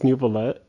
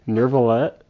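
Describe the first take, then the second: First: The first syllable has no R sound. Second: The first syllable has an R sound. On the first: The speaker calls it right. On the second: The speaker calls it wrong.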